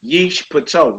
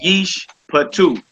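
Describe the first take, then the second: First: The last vowel sounds like 'oh'. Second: The last vowel sounds like 'oo'. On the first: The speaker calls it wrong. "Not a oh" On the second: The speaker calls it right. "a long ooh on that two"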